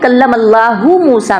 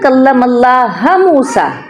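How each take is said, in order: First: Allah ends with a 'hu' sound. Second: Allah ends with a 'ha' sound. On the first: The speaker calls it right. "पहले है" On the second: The speaker calls it wrong. "हु की बजाय हा"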